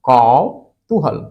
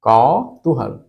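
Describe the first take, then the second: The two takes are said the same way.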